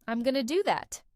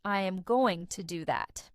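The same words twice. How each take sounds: First: "I'm gonna do that" with going to run into gonna; relaxed reduced "gonna", words linked together; casual contraction. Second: "I am going to do that" with every word separate; "I am" and "going to" said in full; careful textbook "I am going to"; full uncontracted form. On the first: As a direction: say "gonna" as one loose word. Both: Shown as a demonstration. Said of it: "instead of".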